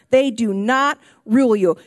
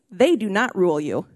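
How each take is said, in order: First: "They do not rule you" said again, louder and firmer; firm emphatic repeat. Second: Said in the usual way. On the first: Shown as a demonstration. Pastor repeating it to the congregation, firm emphatic. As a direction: drive it home the second time.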